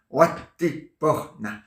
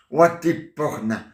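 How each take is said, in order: First: Watiporna stretched out very slowly; very slow nonsense incantation; slower backwards word. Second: Slow drawn-out Watiporna; word said backwards. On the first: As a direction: drag out each syllable of Watiporna. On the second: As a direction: say Watiporna slowly, syllable by syllable. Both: Shown as a demonstration. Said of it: "je dis n'importe quoi à l'envers".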